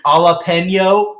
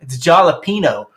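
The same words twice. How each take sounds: First: JALAPENO as a slow "ah-la-pen-yo"; initial sound dropped. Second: JALAPENO jokingly said as "jah-la-pee-no"; J pronounced. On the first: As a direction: challenge with "jalapeno" missing its first consonant, higher and drawn out. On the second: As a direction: say "jalapeno" with an English J and "pee" in the middle. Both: Retold or imitated. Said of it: "Do you not pronounce the J".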